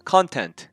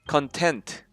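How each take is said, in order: First: The stress is on the first syllable. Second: The stress is on the second syllable. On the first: Material such as video content. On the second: Satisfied with what one has.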